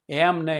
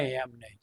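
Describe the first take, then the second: First: Mild mock interruption; sharp no. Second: Softer echo of the refusal; falling repeat. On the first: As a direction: cut in louder on એમ નહીં. Angry trustee cutting in. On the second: Retold or imitated. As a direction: let the repeat sink under the breath. Repeated, dropping.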